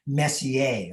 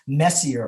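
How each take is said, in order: First: The name is said with a French-like pronunciation. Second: The name is said with an English pronunciation. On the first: The speaker calls it right. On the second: The speaker calls it wrong.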